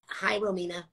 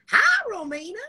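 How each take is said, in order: First: It is said in the speaker's own voice. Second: It is said in an imitation of Millie's voice.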